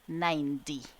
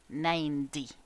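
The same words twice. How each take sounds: No difference in how they are said.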